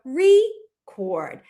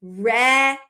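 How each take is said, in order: First: Record as REE... KORD, long ee; split after vowel. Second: Record as REH... KORD, short e; long pause after a short reh in record; split after vowel. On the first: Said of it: "break it up after the vowel". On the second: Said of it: "They might try it as". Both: Shown as a demonstration.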